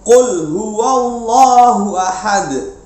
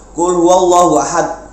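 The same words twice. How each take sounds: First: The final consonant is released with a clear bounce. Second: The final consonant ends flat without a bounce. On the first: The speaker calls it right. "ada pantulannya" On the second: The speaker calls it wrong. "jangan begitu ya, tapi harus jelas ya"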